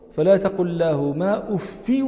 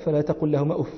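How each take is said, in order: First: The word uff ends with a bare i vowel. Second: The word uff ends with an open a vowel.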